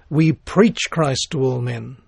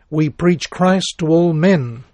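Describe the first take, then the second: First: The stress is on "preach". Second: The stress is on "men".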